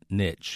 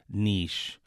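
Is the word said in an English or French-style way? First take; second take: English; French. First: The word is said the anglicized English way. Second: The word is said the French-style way. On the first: This sounds natural in American English. The speaker calls it right. "I think I grew up saying niche" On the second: This sounds affected. The speaker calls it wrong. "this Frenchified niche"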